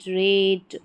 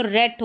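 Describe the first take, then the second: First: रेट with a long "ay" vowel, like rate. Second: रेट said as "rat", with a short open "a". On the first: Teacher practising magic E words, रेट with long "ay". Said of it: "long उनका pronunciation रहेगा". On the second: Teacher showing the word without final E, रेट as short "rat". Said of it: "यहाँ पर ई नहीं होता". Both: Shown as a demonstration.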